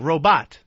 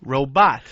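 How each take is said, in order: First: The stress is on the second syllable. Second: The stress is on the second syllable.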